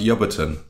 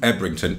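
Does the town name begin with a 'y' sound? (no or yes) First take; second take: yes; no. First: The name is said starting with 'yub', shortened. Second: The name is said as spelled, starting with 'eb'. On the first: This is how local people say the name. "Locally, it's pronounced Yubberton" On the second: This is how the written name is read. "it's a town called Ebrington"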